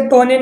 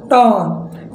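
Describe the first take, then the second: First: टोने in two syllables, "toh-nay"; wrong sounded E. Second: टोन in one syllable, "tone"; silent final E. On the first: Teacher showing what not to read, टोने with final "ay". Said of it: "अब इसे टोने नहीं पढ़ना है". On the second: Teacher correcting the reading, टोन ending on n. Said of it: "इसे पढ़ना है हमें". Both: Shown as a demonstration.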